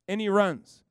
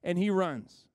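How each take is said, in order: First: And he runs, louder with RUNS punched; a louder, stressed And he runs; emphatic repeat. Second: Said in the usual way. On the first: Shown as a demonstration. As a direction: hit RUNS hard the second time.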